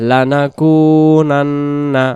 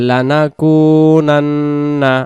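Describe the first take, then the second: The two takes are said the same way.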